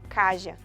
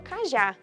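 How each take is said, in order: First: The final vowel is not said open. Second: The final vowel is said open. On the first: The speaker calls it wrong. "e não caja" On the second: The speaker calls it right. "Eu falo cajá"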